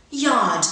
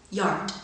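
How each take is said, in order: First: Yard as yahd, no R. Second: Yard with the R before d; American yard. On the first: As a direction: say Yard the British way, no R. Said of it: "first in received pronunciation". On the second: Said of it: "second in General American". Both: Shown as a demonstration.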